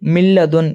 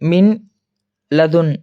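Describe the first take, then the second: First: The n sound merges into a doubled l. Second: The n sound is kept before the l. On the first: The speaker calls it right. "என்று வாசிக்க வேண்டும்" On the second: The speaker calls it wrong. "என்று வாசிக்க கூடாது"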